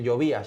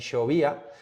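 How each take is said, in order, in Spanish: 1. La ll suena como una y. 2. La ll suena como sh. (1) "no dicen llovía" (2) "sino dicen ese hache"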